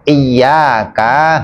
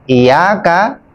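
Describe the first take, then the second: First: The y sound is doubled and held longer. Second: The y sound is single and short. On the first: Only to you. The speaker calls it right. "hanya kepada" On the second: Sunlight. The speaker calls it wrong. "matahari, sinar matahari"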